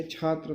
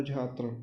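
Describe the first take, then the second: First: Said in the usual way. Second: छात्र said as "jhatra"; jha for chha. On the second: Shown as a demonstration. Teacher showing a common mistake, छात्र said as "jhatra". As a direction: open छात्र with a voiced "jh". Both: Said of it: "छा को झा कहते हैं".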